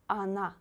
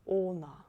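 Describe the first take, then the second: First: The first vowel sounds like a. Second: The first vowel sounds like o. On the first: The speaker calls it right. "O you read as A, because here O is not stressed" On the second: The speaker calls it wrong. "Please don't say она. It's not correct"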